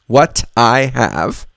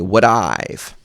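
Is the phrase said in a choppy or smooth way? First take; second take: choppy; smooth. First: It is said in full, choppy, robot-like words. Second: It is contracted and flows smoothly and lightly. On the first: The speaker calls it wrong. "Sounds like a robot" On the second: The speaker calls it right. "we're basically going to turn that into what I've"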